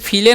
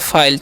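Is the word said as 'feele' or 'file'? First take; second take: feele; file. First: It is said with an 'ee' vowel, like feele. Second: It is said with an 'eye' vowel, like file. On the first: The speaker calls it wrong. "इसे फीले नहीं पढ़ना है" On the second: The speaker calls it right. "तो हो गया फाइल"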